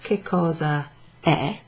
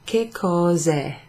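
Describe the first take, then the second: First: The final vowels are said as separate syllables. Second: The final vowels merge into one syllable. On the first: "instead of che cosa è" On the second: "you take off the A"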